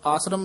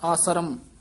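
First: The word is said short and clipped. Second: The word is said slightly drawn out. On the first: The speaker calls it wrong. "ਆਸਰਮ ਨਹੀਂ ਕਹਿਣਾ" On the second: The speaker calls it right. "ਥੋੜਾ ਜਿਹਾ ਲਮਕਾ ਕੇ ਹੀ"

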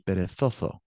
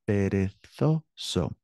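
First: Both the z and the s sound like th. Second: Only the z sounds like th; s is hissed. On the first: The speaker has a lisp. The speaker calls it wrong. "if the lisp happened, it would be perezoso" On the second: This is the normal pronunciation in Spain. The speaker calls it right. "but perezoso"

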